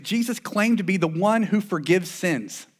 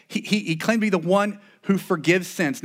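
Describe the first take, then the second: First: The word "one" lifted and held as the key word; stress on ONE. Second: The word "claimed" pushed out as the key word; stress on CLAIMED. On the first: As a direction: lean on "one": the one who forgives. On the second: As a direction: lean on "claimed" this time. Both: Shown as a demonstration. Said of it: "repeats the claim with stress".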